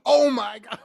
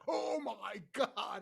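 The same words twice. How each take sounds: First: Louder, higher embarrassed exclamation of "Oh my God"; mortified oh my god. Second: Slow, soft, drawn-out "Oh my God" with a stunned face. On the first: Retold or imitated. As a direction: blurt "Oh my God" in sudden shock. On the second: Shown as a demonstration. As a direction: let "Oh my God" sink out slowly and quietly. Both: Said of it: "I actually did the "Oh my God" face".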